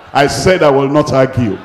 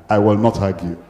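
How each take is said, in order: First: Loud, emphatic preacher's vow; forceful, louder repetition for the congregation; insistent declaration. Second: Said in the usual way. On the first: Shown as a demonstration. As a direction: insist on it with raised volume.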